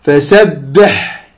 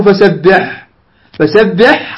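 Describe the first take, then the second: First: Slow, lower فسبح with a long clear final ح; measured stop, ح of فسبح sustained; correct pausal ending. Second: Quicker فسبح with a faulty final ح; wrong pausal ending. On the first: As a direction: stretch فسبح and finish on a careful ح. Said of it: "لا". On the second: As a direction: demonstrate the mistaken stop on فسبح. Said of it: "لا تقل". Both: Shown as a demonstration.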